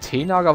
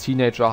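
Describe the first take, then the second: First: The word is read out with German-style sounds. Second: The word is said with English pronunciation. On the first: The speaker calls it wrong. "ich nenne die gerne Teenager. Weil ich habe die vorher auch immer so genannt" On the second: The speaker calls it right. "als ich die englische Aussprache erlernt habe"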